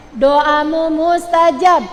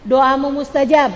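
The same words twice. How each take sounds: First: Slow, loud, drawn-out "Doamu mustajab"; emphatic repetition. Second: Said in the usual way. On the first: Real, not acted. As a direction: stretch and punch "Doamu mustajab". Preacher repeats the promise for emphasis.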